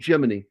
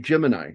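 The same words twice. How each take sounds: First: The word ends with an 'ee' sound. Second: The word ends with an 'eye' sound. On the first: This follows the astronauts' Latin-style pronunciation. "because a couple of the astronauts pronounced it that way" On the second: This is the usual American pronunciation. "Americans typically say Gemini"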